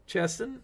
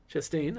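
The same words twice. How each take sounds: First: "Chastain" stressed on the first syllable, CHAS-tun; "Chastain" said first-heavy, second syllable reduced to a quick "tun"; wrong stress. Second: "Chastain" stressed on the second syllable, chas-TAIN, rising; "Chastain" with a full, rising long "TAIN" at the end; corrected stress. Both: Shown as a demonstration. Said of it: "Gotta put, put the accent on the right syllable".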